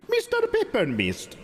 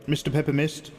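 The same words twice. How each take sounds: First: High, slow, held call, dropping at the end; playful drawn-out name. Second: Said in the usual way. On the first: Pretend. Streamer playfully greeting a viewer by name, high and drawn-out. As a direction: stretch the name out high, then let it fall.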